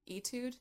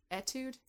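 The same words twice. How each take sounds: First: Etude with a long "ee" opening, higher, questioning; "ee-tood" pronunciation. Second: Etude with a short "eh" opening, higher, questioning; "eh-tood" pronunciation. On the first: Unsure how to say the song title, "ee-tood" Etude. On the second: Unsure how to say the song title, "eh-tood" Etude. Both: Shown as a demonstration. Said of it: "Is that how you say it?".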